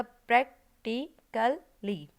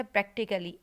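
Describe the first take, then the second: First: प्रैक्टिकली very slowly in four separate syllables. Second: Said in the usual way. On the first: Shown as a demonstration. Teacher showing a four-syllable word to the class, प्रैक्टिकली said syllable by syllable. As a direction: pause after each beat of प्रैक्टिकली. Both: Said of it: "ये भी four syllable वाले में आएगा".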